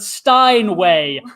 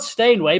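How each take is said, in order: First: The first part sounds like 'Stein'. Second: The first part sounds like 'stain'. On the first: "pronounce the word stain as Stein" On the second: "not Steinway"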